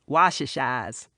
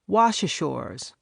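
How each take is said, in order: First: The final r sound is dropped, local style. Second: The final r sound is clearly pronounced.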